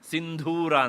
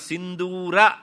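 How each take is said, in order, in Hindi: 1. बीच की d ध्वनि में साँस की फूँक है। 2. बीच की d ध्वनि सादी है, बिना साँस के। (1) "ಅದನ್ನು ಹೊಡೆದು ಹೇಳ್ತಾರೆ" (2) "ಸಿಂಧೂರ ಅಂತ ಹೇಳೋ ಬದಲು"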